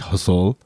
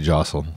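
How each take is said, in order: First: The name begins with an H sound. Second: The name begins with a J sound. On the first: This is how it is said in the Philippines. "in the Philippines they say it with an H" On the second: This is how it is said here. "but here they just say jostle"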